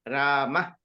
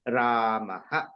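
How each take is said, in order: First: It ends in a bare breathy h sound. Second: It ends in h followed by an echo vowel. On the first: "it is just h" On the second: "you take the liberty and say"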